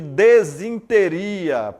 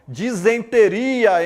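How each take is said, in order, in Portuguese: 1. A palavra começa com des e tem -sin-. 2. A palavra começa com dis e tem -sen-. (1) "em vez de desinteria" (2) "Disenteria em vez de"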